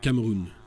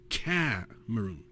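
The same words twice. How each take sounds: First: The stress is on the last syllable. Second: The stress is on the first syllable. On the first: This is the French way of saying it. "in French the accent is uh, on placed on the last syllable" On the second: This is the English way of saying it. "in English the accent tends to be placed on the first syllable"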